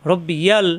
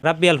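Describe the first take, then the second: First: রব্বিয়াল with short র and doubled b; correct Arabic. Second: Said in the usual way. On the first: Shown as a demonstration. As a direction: say রব্বিয়াল, not রাব্বিয়াল. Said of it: "রাব্বিয়াল পড়া যাবে না". (সঠিক রব্বিয়াল) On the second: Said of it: "পড়া যাবে না".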